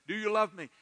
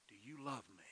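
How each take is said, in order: First: Loud, raised, pressing question; insistent repeat. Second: Very soft, lower, tender asking; hushed, intimate question with a falling end; gentle question. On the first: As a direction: repeat the question forcefully, pitched up. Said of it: "He just kept repeating". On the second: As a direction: ask it quietly, almost under your breath. Acts Jesus gently asking Peter. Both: Acted.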